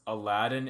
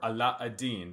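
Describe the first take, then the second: First: The name is said the usual English way. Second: The name is said the Arabic way.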